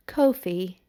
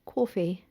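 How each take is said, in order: First: Coffee with a rounded British oh, KOH-fee. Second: Said in the usual way. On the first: Shown as a demonstration. Trying the British way for her co-host, coffee as KOH-fee. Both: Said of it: "British pronunciation".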